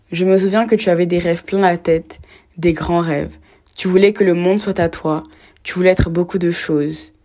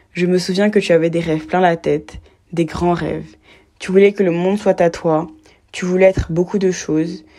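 The two takes are said the same way.

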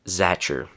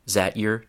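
First: The t and y sounds merge into ch. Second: The t and y sounds stay separate. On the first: "we reduce this combination to ch" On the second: "The next reduction is from"

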